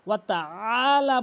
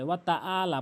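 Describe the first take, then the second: First: The vowel starts with a squeezed throat sound. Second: The vowel starts with a plain glottal stop. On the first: The speaker calls it right. "ওয়াতা আলা বলতে হবে" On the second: The speaker calls it wrong. "ওয়াতা আলা বলা যাবে না"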